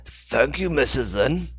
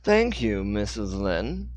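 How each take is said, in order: First: Lightly higher, louder voice for Dixon; the wrong character voice. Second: Slow, precise Dixon voice; clearly enunciated. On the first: Dixon thanks Hannah, slipped into the wrong voice. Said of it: "I'm using the wrong voice here". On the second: Dixon thanks Hannah, enunciating clearly in his own voice. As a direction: spell out every syllable. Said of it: "enunciated clearly". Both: Acted.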